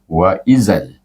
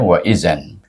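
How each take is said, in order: First: The word ends with an l sound. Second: The word ends with an n sound.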